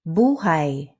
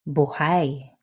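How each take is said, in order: First: "Buhay" with long, stressed BU; stress on first syllable. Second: "Buhay" with short BU, stressed HAY; stress on last syllable. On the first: Teacher drilling learners to repeat, "Buhay" stressed on first syllable. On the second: Teacher drilling learners to repeat, "Buhay" stressed on last syllable. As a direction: move quickly onto HAY in "Buhay". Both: Shown as a demonstration. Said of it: "Stress and rhythm".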